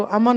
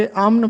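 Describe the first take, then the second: First: अमन in two syllables, "a-MAN"; अमन said loosely as "aman"; wrong pronunciation. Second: अमन in one syllable, "amn"; अमन with no vowel before the n, "amn"; correct pronunciation. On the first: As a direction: put a vowel between m and n in अमन. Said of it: "इसको अमन नहीं पढ़ना". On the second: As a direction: close m straight onto n in अमन. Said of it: "बल्कि अमन पढ़ना है". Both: Shown as a demonstration.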